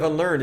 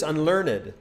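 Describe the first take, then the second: First: Said in the usual way. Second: "unlearned" in three syllables, un-LEARN-ed; sounded -ed. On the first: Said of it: "instead of unlearned". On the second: Shown as a demonstration. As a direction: give "unlearned" its extra final syllable. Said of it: "it's unlearned".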